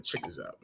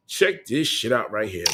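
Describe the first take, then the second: First: Much softer, under the breath; hushed aside to the camera. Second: Said in the usual way. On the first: Real, not acted. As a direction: drop it down to a hush. Showing item, hushed.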